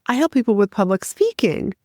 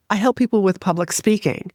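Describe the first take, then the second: First: I help people with public speaking said rising at the end like a question; upspeak. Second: I help people with public speaking said flat and sure, ending on a firm fall; confident statement tune. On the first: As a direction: make the statement sound unsure. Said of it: "Their voice goes up towards the end of the sentence". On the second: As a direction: state it, don't ask it. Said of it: "That's a statement". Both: Shown as a demonstration.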